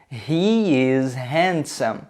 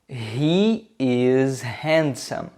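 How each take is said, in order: The two takes are said the same way.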